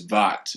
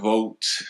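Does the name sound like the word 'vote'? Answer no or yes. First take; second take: no; yes. First: The name is said unlike the word vote. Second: The name is said like the word vote. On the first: The speaker calls it right. "this is the correct way" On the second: The speaker calls it wrong. "It's not vote. A lot of people mispronounce the name"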